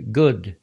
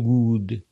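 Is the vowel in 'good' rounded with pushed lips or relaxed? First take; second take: relaxed; rounded. First: The vowel is short with relaxed, unmoving lips. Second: The vowel is said with lips pushed forward. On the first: The speaker calls it right. "Я говорю good. Видите, губы даже не двигаются" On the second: The speaker calls it wrong. "Я не вытягиваю губы. Я не делаю good"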